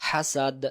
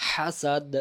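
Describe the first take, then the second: No difference in how they are said.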